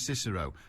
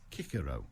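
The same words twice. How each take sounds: First: The name begins with a soft S sound. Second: The name begins with a hard K sound. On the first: The speaker calls it right. "I'm sticking with Cicero" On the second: The speaker calls it wrong. "Roman Latin pronounced C as hard, not soft. So there you are"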